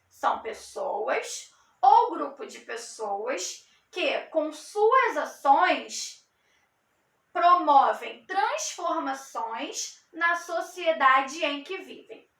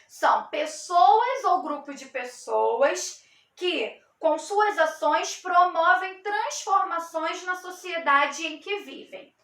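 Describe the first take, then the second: First: It is said very slowly. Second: It is said at a normal pace.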